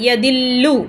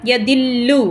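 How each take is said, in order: Both takes have the same delivery.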